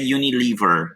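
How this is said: The name is said with an English pronunciation. The speaker calls it right. "em inglês a pronúncia é Unilever"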